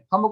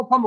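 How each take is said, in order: First: Said in the usual way. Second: "फंब" for थंब, फ replacing the opening थ; child's sound substitution. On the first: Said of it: "थंब को फंब बोले". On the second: Shown as a demonstration. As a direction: start "फंब" with फ instead of थ. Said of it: "थंब को फंब कह रहा है". ("फंब" में थ की जगह फ बोलें)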